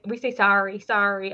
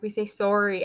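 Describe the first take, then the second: First: "sorry" with an open "sar" vowel; American "sorry". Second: "sorry" with a rounded "sore" vowel; Canadian "sorry". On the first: Retold or imitated. Quoting brother's American girlfriend, "sorry" said as "sar-ree". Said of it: "what my brother's girlfriend says". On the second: Shown as a demonstration. Canadian answering brother's girlfriend, "sorry" said as "sore-ee". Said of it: "I think we pronounce".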